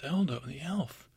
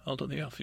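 First: Slow, awestruck Eldo the elf; savoring the name Eldo the elf in wonder; awed repeat. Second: Said in the usual way. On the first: Acted. Bear marvels at meeting the famous elf, slow and awed. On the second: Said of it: "And he's like".

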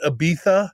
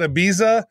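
First: "Ibiza" said with a th sound, ee-BEE-tha; the Spanish way, "Ibiza" as ee-BEE-tha; Spanish pronunciation. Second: Said in the usual way. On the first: Shown as a demonstration. Telling hosts how the Spanish say it, ee-BEE-tha. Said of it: "the Spanish call it Ibiza". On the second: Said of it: "but the Spanish call it Ibiza".

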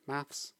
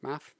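First: "maths" with an S after the th; "maths" finished on a th-s cluster; pronounced with final S. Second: "Math" ending on a th sound, no S; pronounced without final S. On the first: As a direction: say "maths" in the plural, ending in S. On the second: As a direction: say "Math" in the singular, nothing after the th. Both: Shown as a demonstration. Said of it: "Is it math or maths".

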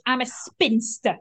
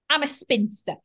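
First: Slow, proudly owning it; proud declaration. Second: Said in the usual way. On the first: Retold or imitated. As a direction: declare it with dignity, slowly. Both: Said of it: "It's the way she said it with such".

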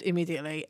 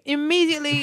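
First: Said in the usual way. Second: IMMEDIATELY higher and stretched out for urgency; emphatic repeat. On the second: Pretend. Co-host urging a listener to watch, "Immediately" emphatic and higher. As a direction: lean hard on "Immediately" at a raised pitch.

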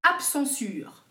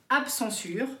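First: Absensure said slowly, each syllable stretched; drawn-out reveal. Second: Said in the usual way. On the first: Shown as a demonstration. Host unveiling the invented word, slow and drawn out.

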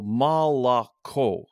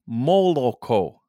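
First: "молоко" very slow, first two O's said as ah, stress on the last O; standard Russian milk. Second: "молоко" slow and louder with every O a full round O; Moscow pronunciation. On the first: Teacher showing the standard Russian word for milk, slow careful pronunciation. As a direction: slowly say "молоко" as mal-a-KO, ah ah then a stressed O. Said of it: "Only the last one is stressed as an O". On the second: Demonstrating how a Muscovite says milk, slow rounded O's. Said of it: "Except if you're from Moscow". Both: Shown as a demonstration.

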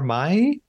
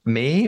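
First: Mai with an "eye" vowel; Mai, sounding just like "my"; pronounced like "my". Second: May with an "ay" vowel; May, a long A sound; pronounced like the month. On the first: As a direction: say Mai to rhyme with "sky". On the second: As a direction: say May to rhyme with "day". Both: Shown as a demonstration. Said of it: "not sure how to pronounce that".

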